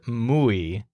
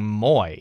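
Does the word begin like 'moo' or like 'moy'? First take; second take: moo; moy. First: It starts with an oo vowel, like moo. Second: It has an oy vowel, like boy. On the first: The speaker calls it right. "always remember the moo sound, like a cow" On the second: The speaker calls it wrong. "mispronounce it, saying moy or something like that"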